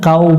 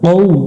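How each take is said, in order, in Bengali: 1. এই স্বরধ্বনিটি একটি খোলা 'a', যা 'u'-তে গড়িয়ে যায়। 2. এই স্বরধ্বনিটি গোলাকার ঠোঁট দিয়ে উচ্চারণ করা হয়। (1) "এখানে কাউ পড়া যাবে না" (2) "কৌ মুখটা গোল হবে"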